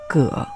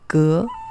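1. 这个音节读三声。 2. 这个音节读二声。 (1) "指姓氏的时候念三声葛" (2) "指植物和纺织物的时候念二声革"

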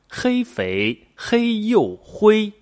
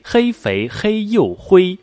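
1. 说得比较慢，比较仔细。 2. 说得比较快。

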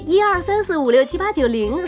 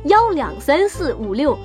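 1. 数字按照它们的普通名称读。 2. 数字读作 yao、liang、guai、gou、dong。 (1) "12345678910 是要读成" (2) "是要读成1234566，怪怕勾动"

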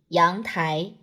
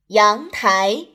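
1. 两个字的音都保持平调。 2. 两个字的音都明显上升。

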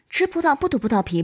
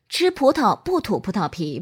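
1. 语速快。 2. 语速中等。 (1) "快速" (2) "中速"

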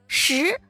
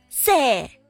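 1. 这是标准普通话的发音。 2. 这是四川口音。

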